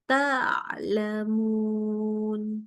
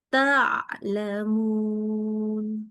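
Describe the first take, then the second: No difference in how they are said.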